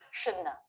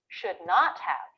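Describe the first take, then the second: First: The words blend into one reduced word. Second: Every word is said fully and separately. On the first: "Americans will say this" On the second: "Let's learn the negative too"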